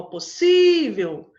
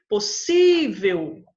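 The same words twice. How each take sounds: First: Possível said loud and slow with the sí hit hard; possível with a strong sí and a falling end; stressed demo. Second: Possível said slowly and loudly with weight on sí; Possível with a heavy sí, falling at the end; stressed demo. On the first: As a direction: hammer sí in possível. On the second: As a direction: drag out Possível, punching sí. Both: Shown as a demonstration. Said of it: "então terminou em L".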